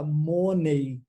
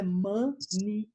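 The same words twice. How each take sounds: First: The final vowel sounds like 'ay'. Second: The final vowel sounds like 'ee'. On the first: The speaker calls it wrong. "eu vejo que no Brasil fala isso" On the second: The speaker calls it right. "a forma correta de falar dinheiro em inglês é"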